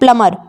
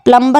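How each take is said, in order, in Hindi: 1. m के बाद b की ध्वनि सुनाई नहीं देती। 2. m के बाद b की ध्वनि सुनाई देती है। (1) "इसको पढ़ना है प्लमर" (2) "प्लम्बर नहीं पढ़ना आपको"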